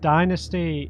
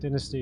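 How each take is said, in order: First: The word is said with an American pronunciation. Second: The word is said with a British pronunciation. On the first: "dynasty is the American pronunciation" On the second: "Dynasty is the British pronunciation"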